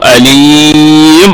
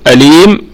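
First: The long vowel is held for six counts. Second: The long vowel is held for two counts. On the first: "ونشبع المد ست حركات" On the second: "حركتين"

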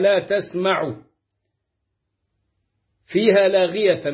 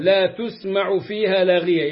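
First: The t of the verb carries an a vowel. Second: The t of the verb carries a u vowel. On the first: The verb is active: you hear no idle talk there. "بالتاء المفتوحة" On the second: The verb is passive: no idle talk is heard there. "بالتاء المضمومة"

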